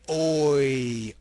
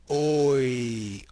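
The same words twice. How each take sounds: No difference in how they are said.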